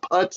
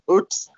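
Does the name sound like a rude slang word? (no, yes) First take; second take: yes; no. First: It sounds like a rude slang word. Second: It does not sound like a rude word. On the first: The speaker calls it wrong. "It's not Putz" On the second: The speaker calls it right. "it's Putz"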